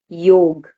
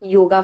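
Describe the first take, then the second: First: The word ends on the consonant g. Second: The word ends with a final vowel sound. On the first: The speaker calls it right. "It's yog" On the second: The speaker calls it wrong. "it's not yoga"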